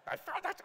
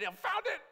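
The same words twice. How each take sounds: First: Put-on half-hearted German accent, high. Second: Mock excited squeak; excited quote. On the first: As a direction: try a German accent, then give up. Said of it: "I'm not gonna do a German accent". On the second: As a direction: blurt it out high. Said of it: "but in a German accent".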